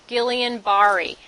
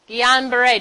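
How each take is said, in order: First: The name is pronounced the English way. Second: The name is pronounced the French way. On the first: The speaker calls it wrong. "Don't say Guillain-Barré. All right? You won't sound good" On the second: The speaker calls it right.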